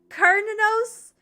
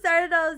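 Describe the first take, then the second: First: The name begins with a K sound. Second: The name begins with an S sound. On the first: The speaker calls it right. "it's pronounced with K and sound instead of the sis sound" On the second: The speaker calls it wrong. "I thought it was Sardanels"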